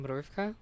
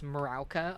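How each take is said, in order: First: The word begins with a tight 'mr' cluster. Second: The word begins with a separate 'mara' syllable. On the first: The speaker calls it right. "the word is actually mrówka" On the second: The speaker calls it wrong. "I kept mispronouncing it as as Marauka"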